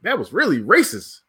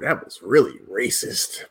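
First: The phrase is said out loud. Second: The phrase is whispered quietly. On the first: The remark is made openly for everyone to hear. "I might say that real loud" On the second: The remark is shared discreetly with one person. "I might whisper to somebody like"

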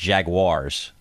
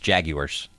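First: The word is said in a non-British way. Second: The word is said in a British way. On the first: "It's Jaguars" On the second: "Unless you're British and then it's Jaguars"

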